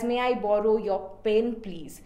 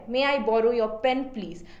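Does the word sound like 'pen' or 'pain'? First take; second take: pain; pen. First: The vowel in 'pen' is a long 'ay' sound. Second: The vowel in 'pen' is a short 'e' sound. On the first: The speaker seems to ask to borrow pain. The speaker calls it wrong. "if in case the pronunciation of my pen changes, it becomes pain" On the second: The speaker asks to borrow a writing pen. The speaker calls it right. "I actually want to convey that I want to borrow your pen"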